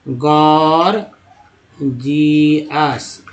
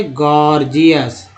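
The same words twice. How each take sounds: First: गॉर्जियस drawn out very slowly, broken into गॉर... जियस; syllable by syllable. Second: Said in the usual way. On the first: Shown as a demonstration. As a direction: stretch गॉर्जियस, first G hard, second as J. (गॉर्जियस को तोड़कर, खींचकर धीरे-धीरे: गॉर... जियस) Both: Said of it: "पहला जी जो है ग".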